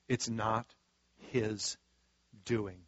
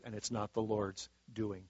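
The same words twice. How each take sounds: First: "It's not / his / doing" with a long pause before each word, softly; slow, pausing emphasis. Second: Said in the usual way. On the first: Real, not acted.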